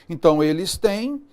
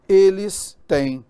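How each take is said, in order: First: Said in the usual way. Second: Eles têm slowed right down and louder; stressed plural demo. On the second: Shown as a demonstration. Teacher drawing out eles têm for students. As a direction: stretch out eles têm so the plural accent lands. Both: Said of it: "Então, veja só".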